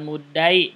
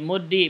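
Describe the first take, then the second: First: The vowel after the doubled consonant is a. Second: The vowel after the doubled consonant is i. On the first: The speaker calls it wrong. "bukan fathah" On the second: The speaker calls it right. "itu kasroh"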